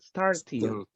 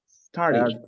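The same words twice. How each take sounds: First: The middle T is a clear T sound. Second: The middle T sounds like a quick R. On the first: "Final id" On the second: "Sometimes the letter T is like an R"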